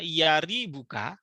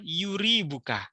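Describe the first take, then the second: First: The first syllable has an 'a' vowel. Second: The first syllable has a 'u' vowel. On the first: The speaker calls it right. "ya-nya bisa dibaca fathah" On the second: The speaker calls it wrong. "bisa juga dibaca dhammah"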